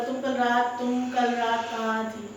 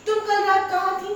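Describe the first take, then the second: First: Calm question. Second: Sharp, high, loud accusing demand; suspicious partner demanding an answer; accusing question. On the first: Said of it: "मैंने आराम से नहीं पूछा". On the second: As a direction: fire the question at her, fast and high. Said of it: "जैसे मैं अगर बोलूं". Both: Shown as a demonstration.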